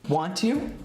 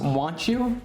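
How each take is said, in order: First: The two words are said separately and clearly. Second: The two words are run together into one.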